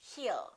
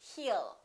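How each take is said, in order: No difference in how they are said.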